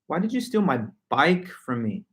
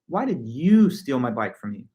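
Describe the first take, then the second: First: The strongest stress falls on the word bike. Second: The strongest stress falls on the word you. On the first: "I add all the stress and accent to the word bike" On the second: "the em- emphasis is all placed on the word you"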